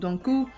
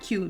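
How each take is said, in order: First: The last syllable sounds like 'koo'. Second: The last syllable sounds like 'cue'. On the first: The speaker calls it right. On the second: The speaker calls it wrong. "not Q"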